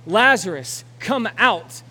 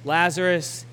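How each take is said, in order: First: Loud, commanding call to the dead; yelled command. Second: Said in the usual way. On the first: Acted. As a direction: shout Lazarus out of the grave. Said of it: "Jesus yells to Lazarus". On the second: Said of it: "And Jesus said to them".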